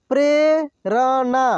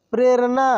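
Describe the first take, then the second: First: Prerna drawn out slowly, syllable by syllable; slow sounding out. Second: Said in the usual way. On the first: Shown as a demonstration. Teacher slowly sounds out Prerna for students. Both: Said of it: "एक एक मात्रा को अलग अलग करके".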